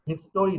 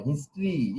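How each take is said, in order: First: হিস্টোরি with an extra o, his-to-ri; mispronunciation demo. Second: হিস্ট্রি with no o, his-tree; correct pronunciation. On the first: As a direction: say হিস্টোরি in three syllables, his-TO-ri. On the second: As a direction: say হিস্ট্রি in two syllables, long final ee. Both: Shown as a demonstration. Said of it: "হিস্টোরি নয়".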